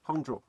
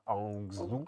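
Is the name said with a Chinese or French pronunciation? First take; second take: Chinese; French. First: It is said with a Chinese pronunciation. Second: It is said with a French pronunciation. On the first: "dis-le bien" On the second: "les Français prononcent ça"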